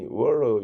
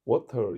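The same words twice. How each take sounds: First: It is said in an American accent, with a rolled r. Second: It is said in a British accent. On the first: "water 이러더래 혀를 굴리더래요" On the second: "영국식으로 water"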